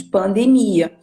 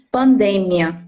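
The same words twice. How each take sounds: First: Pandemia stressed on the MI, pan-de-MI-a; Portuguese word stress. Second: Pandemia stressed on the DE, pan-DE-mia; Spanish word stress. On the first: Teacher showing Brazilian learners the Portuguese stress, pandemia stressed on mi. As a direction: say pandemia with a long stressed i near the end. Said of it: "Em português pronunciamos pandemia". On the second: Teacher contrasting Spanish with Portuguese, pandemia stressed on de. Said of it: "mas em espanhol pronunciamos pandemia". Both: Shown as a demonstration.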